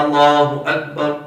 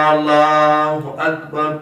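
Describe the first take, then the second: First: Said in the usual way. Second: اللہ begun on a slow, drawn-out 'Aaal-laaahu'; wrong long first alif. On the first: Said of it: "امام نے تو simple کہا". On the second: Retold or imitated. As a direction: imitate the caller stretching the first A of اللہ. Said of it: "اونچی آواز سے بولتے ہیں تو وہ یہ غلطی". (مکبر کی طرح اللہ کا پہلا الف کھینچ کر)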